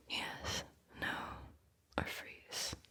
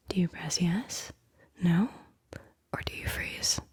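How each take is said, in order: First: The choices echoed in a fading whisper; a dying whispered echo of the options; faded echo. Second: Said in the usual way. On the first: Acted. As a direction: let it fall away like an echo.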